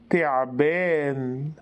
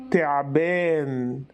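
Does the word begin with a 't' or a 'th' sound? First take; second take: t; t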